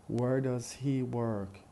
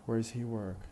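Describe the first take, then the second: First: "Where does he work?" slowly, does and he in full; careful speech. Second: "Where does he work?" linked, does and he weak; fast connected speech. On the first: Teacher pronounces examples for students, in careful speech. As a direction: separate each word of "Where does he work?". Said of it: "Once in, uh, careful speech". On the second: Teacher pronounces examples for students, in fast connected speech. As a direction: run "Where does he work?" together, only where and work stressed. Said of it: "does and he are unstressed". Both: Shown as a demonstration.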